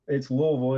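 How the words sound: Louisville is said the way locals say it.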